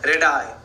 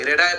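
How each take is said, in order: First: Radii spoken as "ray-dee-eye", the plural of radius; radii said clearly. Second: Radii pronounced "ray-dee-eye" once more; radii said again. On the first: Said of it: "radius का plural क्या होता है?". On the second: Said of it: "radii पढ़ेंगे उसको". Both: Shown as a demonstration.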